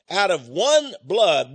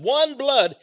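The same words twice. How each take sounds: First: Slow, weighty stress on one; a deliberate, slowed first take; slow emphasis. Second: "one" pitched up high and stressed; repeated with a lifted "one blood"; raised emphasis. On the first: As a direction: lean slowly into "one blood". Repeats phrase for emphasis. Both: Real, not acted.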